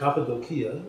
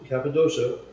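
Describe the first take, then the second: First: It uses a more original, non-English pronunciation. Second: It uses the everyday English pronunciation.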